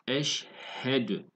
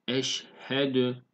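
No difference in how they are said.

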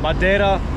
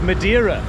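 First: It is said with the i sound left out. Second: It is said with a British pronunciation. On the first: "Some pronounce the I as silent" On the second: "the Brits or people in England like to talk of Madeira"

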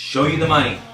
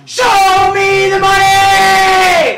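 First: It is said quietly, without energy. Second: It is yelled loudly with energy.

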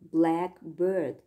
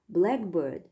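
First: The stress falls on 'bird'. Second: The stress falls on 'black'. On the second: It is a particular kind of bird. "which is a kind of bird"

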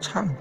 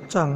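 First: The syllable begins with a 'ch' sound. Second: The syllable begins with a 'z' sound. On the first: The speaker calls it right. "应该读作唱" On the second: The speaker calls it wrong. "不是藏哦"

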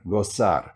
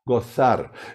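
First: The z sounds like English s. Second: The z sounds like English th. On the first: This is the pronunciation used in South America and southern Spain. "In South America and in South Spain, they always change. They switch the sound" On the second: This is the pronunciation used in Spain. "In Spain, you would say this"

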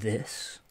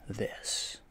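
First: It is said in a louder, fuller voice. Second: It is said in a softer, quieter voice. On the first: The speaker calls it wrong. "less of this" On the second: The speaker calls it right. "a little bit more of like this"

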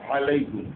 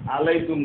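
First: The initial throat consonant is clearly pronounced. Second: The initial throat consonant is missing. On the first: The speaker calls it right. "আইনের উচ্চারণটা তার মাখরাজ থেকে উচ্চারণ করা" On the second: The speaker calls it wrong. "না হয়"

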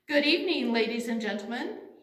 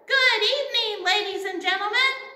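First: It is said at a quiet volume. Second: It is said at the loudest volume.

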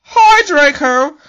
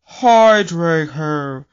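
First: It is said in a normal, upbeat tone. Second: It is said in a gloomy, depressed tone.

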